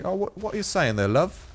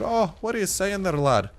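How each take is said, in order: First: Higher-pitched, chummy British greeting; cheeky put-on British voice; British accent. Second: Botched British accent, pitched up; higher-voiced, unconvincing British lad-talk; attempted British accent. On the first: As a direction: slip into a playful British accent. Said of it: "talking like a true Brit". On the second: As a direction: have a clumsy go at sounding British. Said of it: "I got a British one". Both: Shown as a demonstration.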